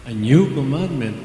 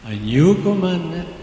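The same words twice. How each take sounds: First: Said in the usual way. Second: NEW lifted higher and louder; rising preacher emphasis on new; emphatic repeat. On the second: Shown as a demonstration. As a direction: hit new commandment harder. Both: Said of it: "repeated with more force".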